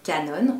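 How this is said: It is said with a French accent. "en français"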